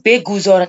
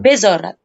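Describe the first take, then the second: First: The g sound is pronounced in full. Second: The g sound is dropped entirely. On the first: The speaker calls it wrong. "nggak usah beguzorat" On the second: The speaker calls it right. "G-nya hilang"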